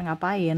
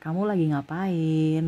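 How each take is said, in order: First: It is said in a harsh, pressing tone. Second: It is said in a gentle, soft tone.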